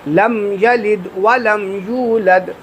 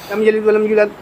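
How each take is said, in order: First: It is recited slowly and calmly. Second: It is recited very fast and hurried. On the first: The speaker calls it right. "आराम आराम से" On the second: The speaker calls it wrong. "लोग बहुत जल्दबाजी में किस तरीके से पढ़ते हैं"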